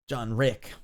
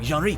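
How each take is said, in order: First: The name is said in a plain English accent. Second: The name is said with a foreign accent.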